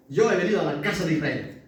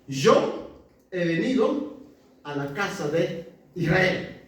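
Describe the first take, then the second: First: Fast, tossed-off repeat; brisk paraphrase of the verse; quick restatement. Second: Drawn out slowly, word by word; slow, deliberate scripture reading; slow emphatic quote. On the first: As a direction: rattle it off quickly as a recap. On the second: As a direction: lay each word down slowly for weight. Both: Shown as a demonstration.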